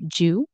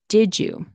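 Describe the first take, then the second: First: It is reduced to one syllable, jew. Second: The D and Y merge into a J sound. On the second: "D, Y sound turns into a J sound"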